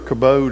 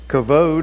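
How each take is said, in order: First: The middle consonant is a b sound. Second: The middle consonant is a v sound. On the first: The speaker calls it wrong. "kabod is how I said it until I listened to it today" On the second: The speaker calls it right. "heard how you're supposed to pronounce it"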